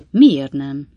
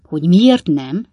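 First: Doubtful short question, loud but not raised. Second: Slow, loud rhetorical echo; incredulous father, loud and deliberate; emphatic echo. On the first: A narrator's reading. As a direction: question it sceptically. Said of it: "kétkedő hangon". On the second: Acted. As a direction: throw the question back, drawn out. Father echoes son's question emphatically.

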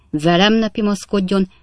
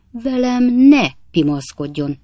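First: Raised, indignant warning at normal speed; stern warning. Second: Slow, high, loud stress on "ne"; emphatic warning. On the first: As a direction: warn the offender firmly and briskly. Captain's warning, first time. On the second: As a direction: stretch and punch "ne" with indignation. Captain repeats warning with more force. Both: Acted.

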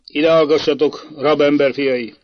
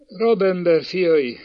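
First: Loud, authoritative address; stern command. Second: Put-on high, slow tearful child's answer; sobbed answer. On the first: Prince to the prisoner's sons, loud and stern. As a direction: demand their attention coldly. Prince summons the boys to judgement. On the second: Little boy answering the prince, mildly sobbing. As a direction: draw it out as if near tears. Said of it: "zokogta Ádámka". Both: A narrator's reading.

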